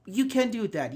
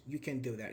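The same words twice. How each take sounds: First: Can said louder, with a falling tune; stress on can. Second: You can do that, lower and softer; softer take. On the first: Teacher stressing can to show intonation. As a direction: hit the word can hard. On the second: Teacher contrasting a soft version of the line. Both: Shown as a demonstration. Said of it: "It's about the intonation".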